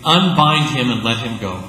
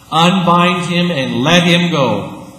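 First: Said in the usual way. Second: Louder, slow, weighty repeat; slow emphatic proclamation. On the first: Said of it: "he says to the community". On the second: Retold or imitated. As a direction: preach it to the congregation. Repeated as sermon climb.

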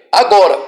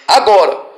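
Both takes have the same delivery.

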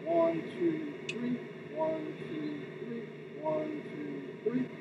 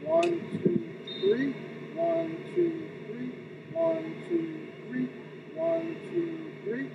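First: Even one, two, three matched to the leg; steady rhythmic count. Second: Even one, two, three, count repeated in a loop; steady rhythmic count. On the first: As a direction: count the beat while arm and leg move together. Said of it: "so you put that with the leg". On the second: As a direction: keep time for the arm cycle, even beats. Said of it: "so from here you go". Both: Shown as a demonstration.

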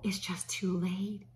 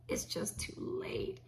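First: Said in the usual way. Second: Slow whispered repeat of "It's just too late."; whispered echo. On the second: Shown as a demonstration. Host echoing her own line to viewers, slow whisper. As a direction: breathe the words again, no voice.

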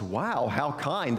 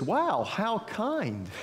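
First: Lightly voiced storybook cow, drawn out; a touch of slow, understated wonder; mildly amazed cow. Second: High, drawn-out storybook wonder; higher-pitched, slow awe; amazed pig. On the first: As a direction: marvel slowly, near your usual pitch. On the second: Acted. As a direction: marvel slowly as a delighted storybook pig. Voices the pig in children's story.

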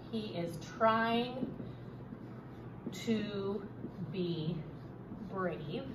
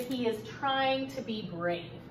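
First: Word by word, softer, with long pauses; slow dictation. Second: Said in the usual way. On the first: Shown as a demonstration. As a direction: dictate slowly as you write it out. Teacher repeats it while writing.

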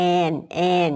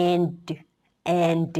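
First: "and" said as "an", ending on n; teacher models "and" as plain "an"; without final d. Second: "and" with a separate released "duh" at the end; teacher models "and" with an audible final d; added final d. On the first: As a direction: say "and" with no d at the end. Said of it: "คำแรกก็จะเป็น". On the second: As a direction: say "and", then clearly release the d. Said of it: "พอเพิ่มดีมาก็เป็น". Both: Shown as a demonstration.

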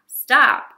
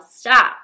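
First: Loud falling stop; yell. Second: Loud yell of stop. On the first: Imagined bystander yelling again at the runaway streetcar. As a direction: let the second stop drop. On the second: Imagined bystander yelling at the runaway streetcar. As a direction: call out to halt it. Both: A narrator's reading. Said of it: "no one to yell".

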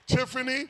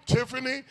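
Both takes have the same delivery.

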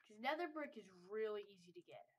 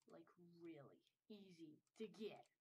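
First: Said in the usual way. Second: Near-whispered, lower aside; very soft, whispery repeat; hushed emphasis. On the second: Real, not acted. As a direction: drop to a whisper to underline it.

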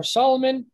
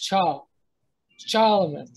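First: "Solomon" with a plain s at the front; s pronunciation. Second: "Chal, Solomon" as "Chal... Cholomon", ch first; ch pronunciation. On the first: Teacher giving the familiar name, s pronunciation. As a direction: say "Solomon" starting on s. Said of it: "And for Solomon". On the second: Teacher showing the proposed older name, ch pronunciation. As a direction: say "Solomon" with ch replacing the s. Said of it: "it'd be a C H". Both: Shown as a demonstration.

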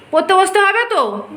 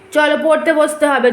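First: Higher, loud, exasperated insisting. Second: Loud, firm call to study. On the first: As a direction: push it harder, high and loud. Mother insists child must study. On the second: Mother orders child to study. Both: Real, not acted.

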